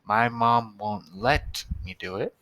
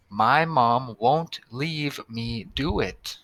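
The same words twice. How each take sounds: First: "let" put in place of "leave", read plainly; corrected sentence. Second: Slowed, careful read of the sentence. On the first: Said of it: "instead of leave, we wanted to say let". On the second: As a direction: read it word by word for the class. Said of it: "let's read the first sentence". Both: Shown as a demonstration.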